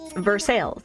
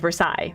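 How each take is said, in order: First: It is pronounced the American way. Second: It is pronounced the French way. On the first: This is how the town's name is actually said. "Oh no, it's Versailles" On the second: This is how the name looks like it should sound. "looks like it would sound like Versailles"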